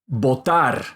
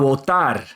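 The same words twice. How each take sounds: First: The lips close fully on the b sound. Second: The lips do not touch on the b sound.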